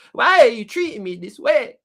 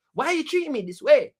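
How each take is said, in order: First: Louder mock plea. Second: Higher, whiny hurt question; mock hurt whine. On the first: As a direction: push the hurt question out harder. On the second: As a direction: plead like a wounded host.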